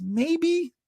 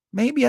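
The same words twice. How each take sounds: First: Maybe sung high and falling; a teasing high falling maybe; doubtful maybe. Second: Maybe tossed up high with a rise; a quick questioning high maybe; rising maybe. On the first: Musing whether Scandinavians bust balls, high falling maybe. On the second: Still unsure about Scandinavians, high rising maybe. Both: Pretend.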